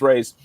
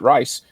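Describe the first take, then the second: First: The name rhymes with 'days'. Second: The name rhymes with 'nice'. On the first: The speaker calls it right. "Nope, it's Rays" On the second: The speaker calls it wrong. "I pronounce it Rice every time I saw it"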